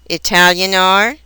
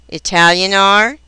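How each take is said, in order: No difference in how they are said.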